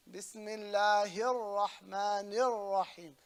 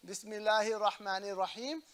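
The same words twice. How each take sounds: First: Slow "Bismillahir Rahmanir Rahim" with rolled r and held l; "Bismillahir Rahmanir Rahim", doubled letters held; rolled R, stressed lam. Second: "Bismillahir Rahmanir Rahim" with unrolled, unheld r and single l; conversational "Bismillahir Rahmanir Rahim", consonants left short; no shadda. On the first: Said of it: "You gotta roll the R". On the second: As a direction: skim "Bismillahir Rahmanir Rahim" without pressing any letter. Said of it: "you don't say". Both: Shown as a demonstration.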